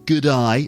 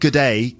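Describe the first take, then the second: First: The second word sounds like 'eye'. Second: The second word sounds like 'day'. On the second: "not good day"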